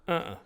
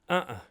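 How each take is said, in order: No difference in how they are said.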